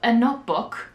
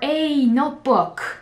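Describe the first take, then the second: First: The word 'a' is short and unstressed. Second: The word 'a' is full and stressed. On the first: A plain, neutral request. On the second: The speaker is annoyed at receiving the wrong thing.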